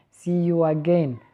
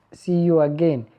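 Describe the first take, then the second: No difference in how they are said.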